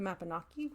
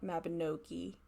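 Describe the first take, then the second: First: It is pronounced the Welsh way. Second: It is pronounced the English way. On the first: The speaker calls it right. "her video to help me navigate the Mabinogi" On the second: The speaker calls it wrong. "which is not Mabinogi"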